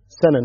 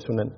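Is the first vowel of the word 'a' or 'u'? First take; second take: a; u. First: The word is said with 'a' vowels, sanan. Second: The word is said with a 'u' vowel, sunan. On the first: It is the singular, meaning the path. The speaker calls it right. "سنن وليس سنن. الفرق أن السنن مفرد" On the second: It is the plural form. The speaker calls it wrong. "وبعضهم يقراها سنن"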